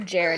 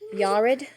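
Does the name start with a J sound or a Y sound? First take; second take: J sound; Y sound. First: The name begins with a J sound. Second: The name begins with a Y sound. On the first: The speaker calls it wrong. "probably not the correct pronunciation" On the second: The speaker calls it right. "Maybe it's Yared"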